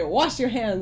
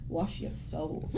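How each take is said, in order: First: Said in the usual way. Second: Slow, low and soft, almost breathed; solemn whisper-quiet voice. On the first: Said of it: "every time I hear someone say". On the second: Retold or imitated. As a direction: intone it like a hushed meme character. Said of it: "and I just think".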